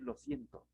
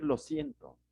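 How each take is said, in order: First: "lo siento" said up high and softer, a throwaway apology; a hollow "lo siento", raised high and hushed; mock apology. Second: "lo siento" dropped low, a dutiful apology; a low, curt "lo siento" meant to end the matter; dismissive apology. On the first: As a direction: toss off "lo siento" lightly and high. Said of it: "No basta con decir". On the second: Retold or imitated. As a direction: say "lo siento" low and short, as if it settles everything. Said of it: "no basta con decir".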